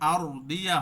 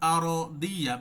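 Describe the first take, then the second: First: The r has no vowel after it. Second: The r is followed by an a vowel. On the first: The speaker calls it wrong. "এখানে আর দিয়া হবে না" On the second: The speaker calls it right. "জবর অথবা জেরও পড়তে পারি"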